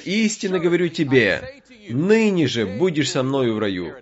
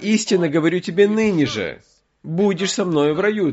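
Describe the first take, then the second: First: The pause comes right before 'ныне же'. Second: The pause comes right after 'ныне же'. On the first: Paradise is promised for that very day. The speaker calls it wrong. "я прочитаю так, как здесь написано" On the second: The promise is given today, without saying when paradise comes. The speaker calls it right. "здесь вопрос запятой. Если ее перенести"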